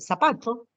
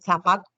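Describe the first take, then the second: First: The z is said with an s sound. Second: The z is said with a th sound. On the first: This is how locals actually say it. "Decimos este" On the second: This is how Spain pronounces it, not locals. "¿quién dice zapato? Nadie"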